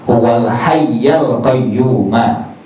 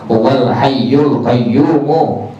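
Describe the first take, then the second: First: The words end in an 'a' vowel. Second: The words end in a 'u' vowel. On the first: The speaker calls it right. "dibaca astaghfirullah al hayyal qayyumah" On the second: The speaker calls it wrong. "Jadi tidak dibaca dengan kalimat huwal hayyul qayyumu"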